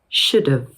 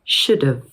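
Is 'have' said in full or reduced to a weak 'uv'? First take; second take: reduced; reduced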